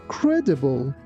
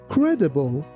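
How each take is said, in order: No difference in how they are said.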